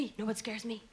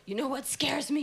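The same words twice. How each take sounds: First: Dropped low and much softer; spooky hushed retake of the same question; hushed repeat. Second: Said in the usual way. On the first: Shown as a demonstration. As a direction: lean in and say it again under the breath.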